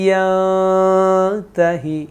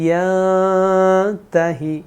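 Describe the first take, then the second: Both takes have the same delivery.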